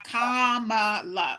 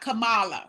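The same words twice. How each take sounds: First: The first part sounds like the word 'comma'. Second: The first part does not sound like 'comma'. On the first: The speaker calls it right. "like a comma, la" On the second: The speaker calls it wrong. "not Kamala"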